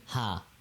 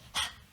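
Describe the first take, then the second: First: It sounds like a light English h. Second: It is a strong breathy exhale without voicing. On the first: The speaker calls it wrong. "like an H in English, but it's not an H in English" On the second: The speaker calls it right. "It's just through exhaling"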